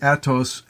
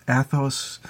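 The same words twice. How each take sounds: First: "Athos" said with a T, AT-ohs; hard T pronunciation. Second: "Athos" said with TH, ATH-ohs; soft TH pronunciation. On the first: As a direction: say "Athos" with a French-style T instead of TH. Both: Shown as a demonstration. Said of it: "we go back and forth".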